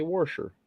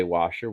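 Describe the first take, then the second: First: Washer said "warsher", with an r after the first vowel. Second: Washer said "wah-sher", no r in the first part; plain washer, "wahsher"; washer without r. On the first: Michigan guy showing his home washer, "warsher". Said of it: "we say washer". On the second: Michigan guy mimicking others' washer, "wahsher". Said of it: "You say washer". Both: Shown as a demonstration.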